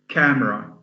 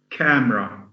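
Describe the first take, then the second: Both takes have the same delivery.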